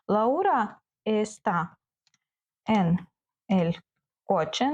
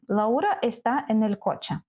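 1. Голос у кінці піднімається, як у питанні. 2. Голос у кінці опускається, як у твердженні.

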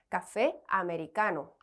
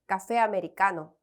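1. 두 단어를 따로 천천히 말해요. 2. 두 단어를 빠르게 붙여서 말해요.

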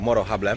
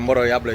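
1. Drugie słowo zaczyna się dźwiękiem H. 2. Drugie słowo zaczyna się dźwiękiem J. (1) "tutaj J się wymawia jako H" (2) "Ostatnio mówiłem Moro Jable i dużo osób właśnie poprawiało"

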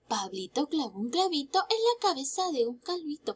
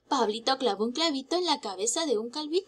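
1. Se dice a un ritmo moderado. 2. Se dice a un ritmo rápido. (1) "Más rápido" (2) "Un poco más rápido"

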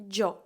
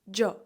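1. Слово починається зі звуку 'j'. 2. Слово починається зі звуку 'j'.

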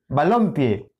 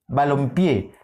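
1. La tónica está en la sílaba del medio. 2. La tónica está en la última sílaba.

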